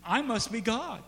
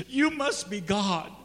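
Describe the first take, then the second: First: "I" leaned on, high, as the punchline; stress on I. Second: "you" leaned on, slowly, as the punchline; stress on you. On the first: Cat concludes about itself, stressing "I". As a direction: put the weight on "I". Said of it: "The cat says". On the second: Dog concludes about its owner, stressing "you". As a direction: put the weight on "you". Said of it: "The dog says". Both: Acted.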